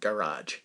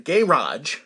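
First: The word is said in an American accent. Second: The word is said in a British accent.

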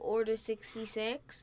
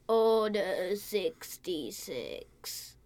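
First: Spoken in the speaker's ordinary natural voice. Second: Spoken in a raspy, sick-sounding put-on voice. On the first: The speaker calls it wrong. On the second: The speaker calls it right.

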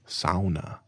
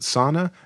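First: Sauna is said in the Finnish-style way. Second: Sauna is said in the common way. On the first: The speaker calls it right. "you did it. That was pretty good" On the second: The speaker calls it wrong. "For anyone who pronounces it sauna, you're wrong"

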